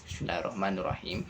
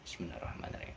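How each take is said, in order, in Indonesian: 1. Ini dibaca dengan keras dan jelas. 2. Ini dibaca dengan pelan dan lirih. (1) "secara jahar, jelas" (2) "secara sir, tidak terlalu uh, jelas, pelan-pelan ya"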